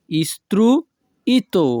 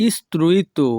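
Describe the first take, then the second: First: Istruito split as "istru... ito", raised pitch; slow istruito, pause after "istru"; syllable by syllable. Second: Said in the usual way. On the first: Shown as a demonstration. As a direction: break istruito in two for learners. Teacher repeats word split for learners.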